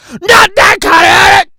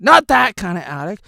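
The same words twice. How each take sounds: First: Not that kind of attic shouted higher and louder; loud echo of the last line; shouted repeat. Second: Said in the usual way. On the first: Shown as a demonstration. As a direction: echo it back as a loud yell.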